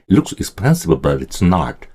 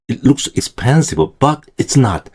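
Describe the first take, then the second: First: Expensive and but run together like one word. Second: There is a break between expensive and but. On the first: The speaker calls it right. "expensive 다음에 이 but을요 거의 한 단어처럼 붙여서 발음하시는 게 더 좋아요" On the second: The speaker calls it wrong. "이건 한국식이에요"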